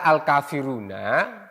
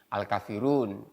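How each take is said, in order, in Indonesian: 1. Vokal akhir diucapkan. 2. Vokal akhir dihilangkan.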